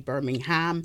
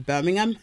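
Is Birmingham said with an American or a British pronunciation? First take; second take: American; British. First: It is said with an American pronunciation. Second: It is said with a British pronunciation. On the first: "you guys say Birmingham" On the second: "we say Birmingham"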